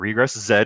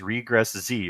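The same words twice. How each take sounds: First: The final letter is said as zed. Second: The final letter is said as zee.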